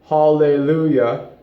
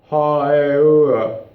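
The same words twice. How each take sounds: First: The L sounds are clearly pronounced. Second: The L sounds are softened under one tall vowel. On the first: "Instead of" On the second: "you stay a very similar vowel sound, tall vowel, the whole entire time"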